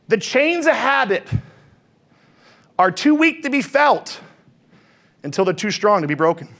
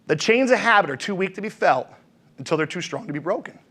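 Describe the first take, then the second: First: Slow, weighty, each phrase spaced out; slow emphatic recital. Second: Softer and lower, letting it sink in; soft lower repeat. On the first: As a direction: lay the quote down word by word. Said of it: "repeats the quote". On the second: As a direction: repeat it quietly so it lands. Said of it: "quote said again". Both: Shown as a demonstration.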